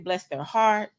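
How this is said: It is said sincerely, with genuine sympathy.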